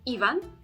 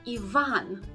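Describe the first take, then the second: First: The stress is on the first syllable. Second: The stress is on the second syllable. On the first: The speaker calls it wrong. "so to stress the first syllable again" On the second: The speaker calls it right. "the stress goes on the second syllable, not the first"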